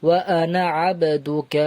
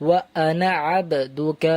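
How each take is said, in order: No difference in how they are said.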